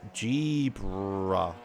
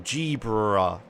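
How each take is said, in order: First: The name is said slowly. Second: The name is said quickly.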